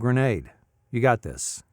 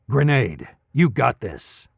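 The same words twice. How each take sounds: First: It is said softly with low energy. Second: It is said intensely with high energy. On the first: The speaker sounds casual and unbothered. "the kind of the soft, like whatever" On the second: The speaker sounds pumped up and exerted. "you're like feeling it. You're even sweating"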